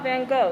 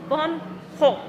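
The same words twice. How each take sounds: First: The name has ordinary English G sounds. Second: The name has throaty H sounds at both ends. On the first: The speaker calls it wrong. "the way I'm pronouncing it right now is extremely incorrect" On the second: The speaker calls it right. "with a hard H at the front and hard H at the back"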